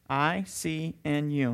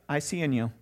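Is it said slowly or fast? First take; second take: slowly; fast. First: It is said slowly, word by word. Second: It is said quickly, words run together.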